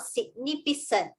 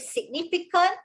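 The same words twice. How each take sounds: First: The second C sounds like S. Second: The second C sounds like K. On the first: The speaker calls it wrong. "and not significant" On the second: The speaker calls it right. "Why is it significant and not significant? ... because of the following A"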